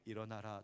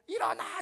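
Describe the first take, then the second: First: It is said quietly at a low pitch. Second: It is shouted loudly at a high pitch.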